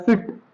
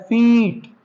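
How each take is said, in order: First: फिट with a short quick i. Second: फीट slowly with a long drawn ee. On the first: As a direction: clip the i in फिट. (फिट छोटी इ के साथ) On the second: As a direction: stretch the ee in फीट. (फीट लंबी ई खींचकर) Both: Shown as a demonstration. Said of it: "दोनों में फर्क है".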